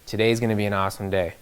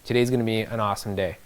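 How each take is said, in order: The two takes are said the same way.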